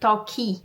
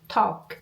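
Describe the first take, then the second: First: The word ends with an added 'ee' vowel. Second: The word ends cleanly on the final consonant. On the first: The speaker calls it wrong. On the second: The speaker calls it right. "lembrar que é walk, talk"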